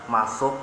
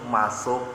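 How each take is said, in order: Both takes have the same delivery.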